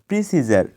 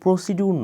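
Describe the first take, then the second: First: The middle consonant is a j sound. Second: The middle consonant is a d sound. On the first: The speaker calls it right. "এটা হবে প্রিসিজার" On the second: The speaker calls it wrong. "এটা প্রসিডিউর নয়"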